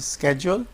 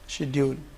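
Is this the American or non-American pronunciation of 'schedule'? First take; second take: American; non-American. First: It is said with an American pronunciation. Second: It is said with a non-American pronunciation. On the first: "Americans pronounce it schedule" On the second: "we pronounce schedule"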